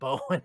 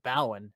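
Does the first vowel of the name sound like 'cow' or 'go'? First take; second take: go; cow. First: The first vowel rhymes with 'go'. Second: The first vowel rhymes with 'cow'. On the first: The speaker calls it right. "instead of Bowen" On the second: The speaker calls it wrong. "all I could think of was Gowan Field ... I pronounced it Bowen"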